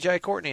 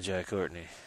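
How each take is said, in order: First: The name is said with excited enthusiasm. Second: The name is said with flat disappointment. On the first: The actor is welcome and liked. "more people are going to be excited to see him" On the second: The actor is unwelcome or disliked. "instead of"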